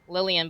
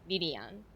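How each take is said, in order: First: The name is said with an English pronunciation. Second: The name is said with a Japanese pronunciation. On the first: "there's like Lillian" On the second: "if I say it in Japanese, it's Lilian"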